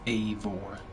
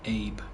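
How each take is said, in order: First: The name is said with a v sound. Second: The name is said with a b sound. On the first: The speaker calls it right. "It's Avor. A V. Not A B" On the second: The speaker calls it wrong. "I've been mispronouncing Avor's name. It's not Abe"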